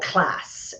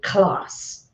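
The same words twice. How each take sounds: First: It is said in an American accent. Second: It is said in a non-American accent.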